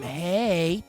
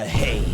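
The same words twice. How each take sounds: First: It is said in a light, normal voice. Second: It is said in a deep, distorted voice.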